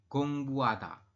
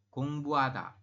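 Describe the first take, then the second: Both takes have the same delivery.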